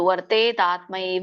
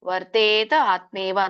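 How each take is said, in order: First: The words are merged into one word. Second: The words are said as separate words. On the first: "ಇಲ್ಲ ಅಂದ್ರೆ ಕೂಡಿ ಹೇಳ್ಬೋದು" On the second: "ಅಂತ ಹೇಳ್ಬೋದು ಒಂದು"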